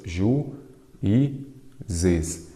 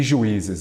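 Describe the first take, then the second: First: "Ju, i, zes" in three separate beats; syllable by syllable. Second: Said in the usual way. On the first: Shown as a demonstration. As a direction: split juízes with a pause after each of Ju, i, zes. ("Ju, i, zes" dito pausadamente, sílaba por sílaba) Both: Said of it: "vamos separar em sílabas".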